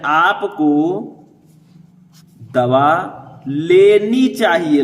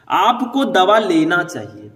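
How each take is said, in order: First: लेनी drawn out very slowly and louder; corrected form stressed. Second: Slow reading of the faulty sentence with लेना; wrong form read out. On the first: Teacher gives students the corrected sentence, stressing लेनी slowly. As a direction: stress लेनी, very slow, each word spaced out. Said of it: "लेना के जगह पर लेनी कर दीजिए". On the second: Teacher reads the wrong sentence to students, slow and clear. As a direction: read आपको दवा लेना चाहिए slowly, as the sentence to be corrected. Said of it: "इसमें गलती क्या है?". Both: Shown as a demonstration.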